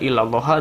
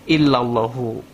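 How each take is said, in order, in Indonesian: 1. Kata ini berakhir dengan huruf hidup a. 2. Kata ini berakhir dengan huruf hidup u. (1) "enggak illallaha" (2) "dibacanya fil wujudi illallah illallahu"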